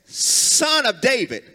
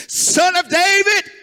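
First: Said in the usual way. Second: High, loud plea; crying out. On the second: Retold or imitated. Beggar cries out to Jesus, high and loud. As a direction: cry it out like a blind beggar calling. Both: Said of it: "He said".

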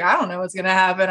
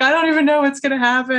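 First: Said in the usual way. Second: Higher, fast, fretful imitation of a crying friend; mock-distressed friend, rushed and high; imitating upset friend. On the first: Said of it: "And I was like". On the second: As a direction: play a friend in a tizzy, without real tears. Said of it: "so she's still crying".

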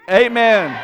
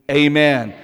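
First: Loud stadium cheer of amen; football game amen. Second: A firm spoken amen for the congregation; amen out loud. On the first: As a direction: call amen like a fan in the stands. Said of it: "say it like we're at a football game". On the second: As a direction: say amen firmly to lead them. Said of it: "we're gonna say amen out loud together". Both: Shown as a demonstration.

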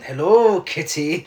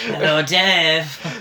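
First: Mock Eastern European villain greeting; lightly put-on Eastern European accent, drawn out. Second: Slow mock Eastern European accent; slow, drawn-out put-on Eastern European accent. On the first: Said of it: "can you do his accent?". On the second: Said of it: "That's what you were saying".

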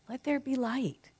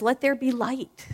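First: Higher, softer echo; inner cheerleader. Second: A touch higher proclamation; inner cheerleader. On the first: Speaker echoing the inner cheerleader, higher and softer. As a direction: repeat it gently up high. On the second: Speaker voicing the inner cheerleader proclaiming light. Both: Pretend. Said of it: "Your inner cheerleader says".

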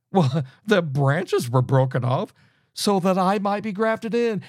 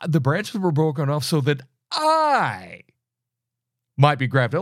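First: Mocking quote. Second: Said in the usual way. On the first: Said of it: "Paul says in verse nineteen". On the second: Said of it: "You will say".

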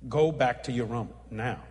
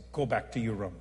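First: Low, firmer repeated command; the Lord. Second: Low, measured command; the Lord. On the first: The Lord insisting the preacher leave at once, low and firm. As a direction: press the order home, landing on NOW. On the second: The Lord telling the preacher to leave his meal, low and measured. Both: Retold or imitated. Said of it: "I heard the Lord say".

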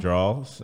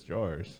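First: "draws" with no final r sound; Southern pronunciation. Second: "drawers" with the r, like "jorz"; Northern pronunciation. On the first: Explaining what Southerners say, "draws" as drawls. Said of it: "I think for Southerners". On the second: Explaining what Northerners say, "drawers" as "jorz". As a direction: sound the r in "drawers". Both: Shown as a demonstration.

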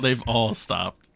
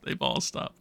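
First: Said in the usual way. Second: Soft whispered echo; whispering. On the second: Real, not acted. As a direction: whisper it to yourself. Repeats the line in a whisper.

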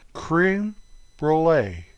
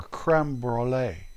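First: "creme" raised like "kreen", then "brulee"; halting "creme", pause, "brulee"; alternative pronunciation. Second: "creme" as "krem", slow and low; drawn-out, softer "krem broo-lay" for "creme brulee"; second pronunciation. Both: Shown as a demonstration. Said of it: "However you want to say it".

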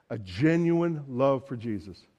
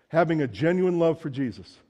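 First: "genuine" leaned on, lower and slower; slow weighted repeat. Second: Said in the usual way. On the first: Shown as a demonstration. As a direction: savour "genuine" as you repeat the line.

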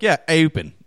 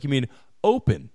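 First: "open" with a fronted Baltimore O, like "ay-pen"; thick Baltimore O. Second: Said in the usual way. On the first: Retold or imitated. Son answering dad's correction, "open" with a thick Baltimore O. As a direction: imitate a kid saying "open" with a Baltimore O. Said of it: "real thick Baltimore O's". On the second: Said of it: "I try to fix it".

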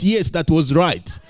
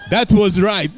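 First: Said in the usual way. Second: Emphatic retold insistence.

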